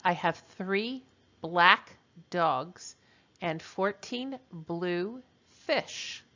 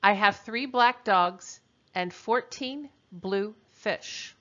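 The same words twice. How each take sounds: First: Very slow, word-by-word dictation; slower repeat. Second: Said in the usual way. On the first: Shown as a demonstration. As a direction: stretch it out for the students. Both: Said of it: "I'll repeat that".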